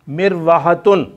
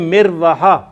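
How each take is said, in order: First: The word ends with a full 'tun' syllable. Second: The word ends on an open vowel, t silent. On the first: This is the full written form. "लिखने में इस तरह आएगा" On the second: This is the form used when stopping. "तो इसको हम पढ़ेंगे मिरवाहा"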